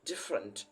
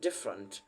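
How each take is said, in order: No difference in how they are said.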